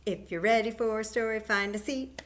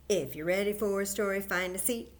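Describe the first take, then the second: No difference in how they are said.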